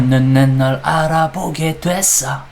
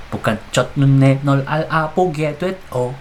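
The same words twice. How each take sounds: First: "nun, ne, nol" linked into one smooth sung flow; run together fast. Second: Each syllable said separately and clipped. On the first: Teacher showing students the fast sung reading. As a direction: glide the syllables together like the real song. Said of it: "Dia bacanya pasti dicepetin". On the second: Teacher reading syllables apart to students. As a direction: spell out chot, nun, ne, nol one by one. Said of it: "Bukan gitu kan". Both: Shown as a demonstration.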